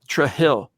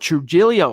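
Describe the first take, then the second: First: The name ends without a final vowel. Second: The name ends with an 'oh' vowel.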